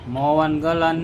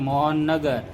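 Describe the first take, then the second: First: The name ends with the sounds 'galan'. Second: The name ends with the sounds 'nagar'. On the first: The speaker calls it wrong. "નહીં" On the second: The speaker calls it right. "મોહન ગલન નહીં મોહનનગર"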